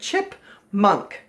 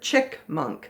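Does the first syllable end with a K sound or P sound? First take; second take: P sound; K sound. First: The first syllable ends with a P sound. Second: The first syllable ends with a K sound. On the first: The speaker calls it right. "it's chip. Chip with a P" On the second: The speaker calls it wrong. "A lot of children pronounce it chick-munk"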